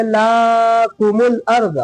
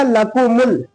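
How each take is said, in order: First: "लाकुमुल" with "ला" dragged out; wrong long first vowel. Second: "लकुमुल" with three quick, short vowels; all syllables short. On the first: Teacher showing a spoiled reading, long "ला" in "लाकुमुल". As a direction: stretch the first syllable of "लाकुमुल" too long. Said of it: "ये खराब हो जाएगा". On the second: Teacher modelling the rule, short vowels in "लकुमुल". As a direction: keep "ल", "कु" and "मुल" brief and even. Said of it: "तीनों को जल्दी". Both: Shown as a demonstration.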